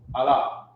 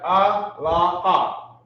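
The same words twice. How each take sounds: First: The word is said smoothly as one unit. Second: The word is sounded out piece by piece. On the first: The speaker calls it right. "it's really not Allah, it's Allah" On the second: The speaker calls it wrong. "they sound out the words"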